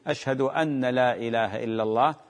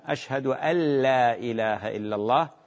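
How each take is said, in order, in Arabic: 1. النون مُشدَّدة وتُحبَس قبل اللام. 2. النون تُدغَم تماماً في اللام التي بعدها. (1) "وأما تشديد النون" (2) "أن يدغم النون باللام"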